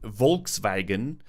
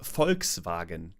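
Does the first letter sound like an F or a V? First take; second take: V; F. First: The first sound is a soft buzzing V. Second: The first sound is a sharp voiceless F.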